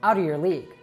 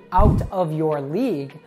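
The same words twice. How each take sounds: First: The words run together with reduced sounds. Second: Each word is said clearly and separately. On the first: "When we use rapid speech" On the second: "in careful speech"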